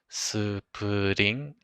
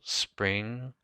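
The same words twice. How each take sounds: First: Said with vowels inserted between the consonants. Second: Said as one syllable with no added vowels.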